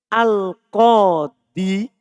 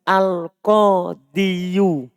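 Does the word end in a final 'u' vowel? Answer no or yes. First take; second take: no; yes. First: The word ends on the 'i' with no added vowel. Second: The word ends with an added 'yu' sound. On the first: "Seharusnya kan gini" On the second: "Seharusnya bisa dibaca al-qadiyu. Tapi berat"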